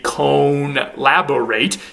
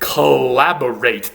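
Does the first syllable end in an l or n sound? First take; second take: n; l. First: The first syllable ends in an n sound. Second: The first syllable flows into an l sound. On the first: "This used to be" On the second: "the N has completely assimilated to the following consonant"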